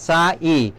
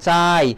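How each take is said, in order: First: The final i is drawn out as a separate syllable. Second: The final i is short and glides off. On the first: The speaker calls it wrong. "আমরা এমন পড়ছি না" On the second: The speaker calls it right. "যেমন চাই"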